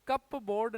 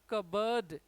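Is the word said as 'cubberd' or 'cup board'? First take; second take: cup board; cubberd. First: It is said as two full parts, cup board. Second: It is said reduced, like cubberd, without p. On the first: The speaker calls it wrong. "इसका सही pronunciation कप बोर्ड नहीं है" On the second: The speaker calls it right. "इसका pronunciation है बर्ड"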